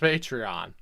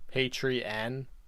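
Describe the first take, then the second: First: The word has no extra 'ee' sound. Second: The word has an extra long 'ee' sound. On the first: This is how most people say it. The speaker calls it right. "I'm pretty sure it's Patreon" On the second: Someone else says it this way. The speaker calls it wrong. "He's pronouncing like there's a second e there"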